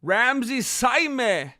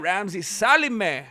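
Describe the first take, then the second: First: Saime said slowly as SIGH-meh; Ramsey Saime sounded out carefully and slowly; correct pronunciation. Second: Salime said as sa-LEE-meh, the misreading; Ramsey Salime read wrong with an extra L; wrong pronunciation. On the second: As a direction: Salime mispronounced. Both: Real, not acted. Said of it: "first person to ever pronounce my last name right".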